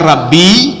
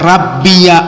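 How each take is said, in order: First: The word ends on a short 'i' sound. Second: The word ends with an added 'ya' syllable. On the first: "Ada yang membaca rabbi" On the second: "Jadi ya-nya itu dibariskan"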